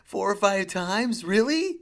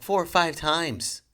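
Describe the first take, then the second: First: High, slow, louder disbelief ending in a squeak; hammed-up astonishment at the bad parking; incredulous. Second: Said in the usual way. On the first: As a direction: stretch "Four or five times" out slowly and high, the pitch jumping on "Really". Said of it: "I was like".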